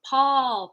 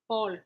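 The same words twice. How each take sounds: First: The P has a puff of air. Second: The P has no puff of air. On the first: The speaker calls it right. "We want to talk about Paul" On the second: The speaker calls it wrong. "you don't want to go back into French and be like Paul"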